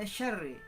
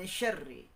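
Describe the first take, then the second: No difference in how they are said.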